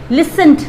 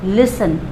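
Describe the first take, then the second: First: लिसंट with the t sounded; लिसंट, t sounded wrongly. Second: लिसन said as lisən; लिसन with the t dropped; t silent. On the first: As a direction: say लिसंट with the t, as the mistake. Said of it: "नहीं". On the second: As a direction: say लिसन without the t. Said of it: "टी को हम silent रखते हैं". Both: Shown as a demonstration.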